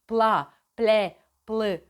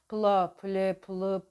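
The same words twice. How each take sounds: First: The syllables are articulated crisply with exaggerated mouth movement. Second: The syllables are articulated loosely with little mouth movement. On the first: The speaker calls it right. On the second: The speaker calls it wrong.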